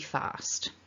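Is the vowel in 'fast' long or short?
long. The vowel is long. "the one on the left has the longer vowel"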